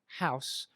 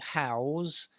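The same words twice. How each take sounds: First: The word ends with a hissing S sound. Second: The word ends with a buzzing Z sound. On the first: It is the noun form. "which is the noun form" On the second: It is the verb form. "with a Z sound"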